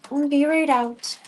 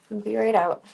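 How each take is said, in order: First: Higher, louder, slow call out. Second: Said in the usual way. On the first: Real, not acted. Owner calling to the dogs outside, louder and slow.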